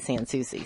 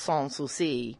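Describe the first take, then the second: First: The name is said with Southern US pronunciation. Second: The name is said with French pronunciation. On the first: "down here in the South, we say" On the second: "the French pronunciation is"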